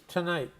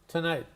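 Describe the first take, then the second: The two takes are said the same way.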